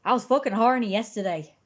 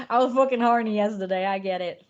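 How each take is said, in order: First: Put-on Irish accent. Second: Hammed-up Irish accent, louder. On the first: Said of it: "I'm doing the accent". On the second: Streamer to chat, in a louder hammed-up Irish accent. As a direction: throw on a jokey Irish accent. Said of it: "That's Irish".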